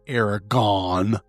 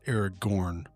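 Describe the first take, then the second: First: The last syllable is said 'gon', without r. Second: The last syllable is said 'gorn', with r. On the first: The speaker calls it wrong. "It is not" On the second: The speaker calls it right.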